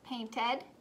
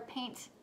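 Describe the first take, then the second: First: The ending is a separate 'id' syllable. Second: The ending is a voiceless 't' sound. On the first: The speaker calls it right. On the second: The speaker calls it wrong.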